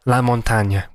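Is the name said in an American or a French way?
French. The name is said the French way.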